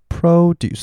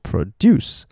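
First: The stress is on the first syllable. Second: The stress is on the second syllable. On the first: It is a noun meaning fruit and vegetables. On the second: It is a verb meaning to make.

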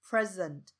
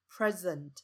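No difference in how they are said.

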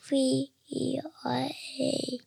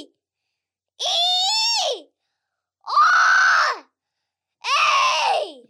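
First: It is said quietly. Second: It is said very loudly.

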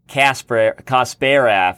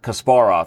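First: The name is said with an American pronunciation. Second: The name is said with a Russian pronunciation. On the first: The speaker calls it wrong. "when Americans say Kasparov" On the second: The speaker calls it right. "instead of Kasparov"

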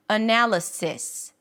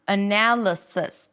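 First: The last syllable has a clear, relaxed I vowel. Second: The last syllable's vowel is reduced to a schwa. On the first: "pronounce it with a relaxed E sound" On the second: "two schwas"

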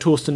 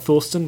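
First: The name begins with a plain t sound. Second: The name begins with a th sound. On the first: The speaker calls it right. "we're saying Torsten now" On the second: The speaker calls it wrong. "not Thorsten"

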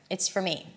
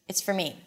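First: The words run together with a reduced vowel. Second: The words run together with a reduced vowel.

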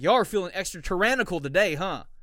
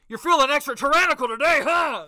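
First: It is said at a normal, quiet volume. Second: It is said very loudly, like shouting.

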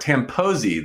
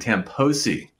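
First: The middle consonant sounds like a Z. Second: The middle consonant sounds like an S. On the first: The speaker calls it right. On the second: The speaker calls it wrong.

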